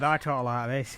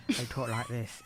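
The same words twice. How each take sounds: First: Northern English accent. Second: Imitated southern English accent, a bit softer. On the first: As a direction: show how northern England talks. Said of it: "'cause I'm from north". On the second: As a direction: show how southern England talks. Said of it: "from the south of England". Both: Shown as a demonstration.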